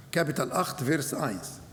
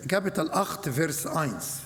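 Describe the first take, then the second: No difference in how they are said.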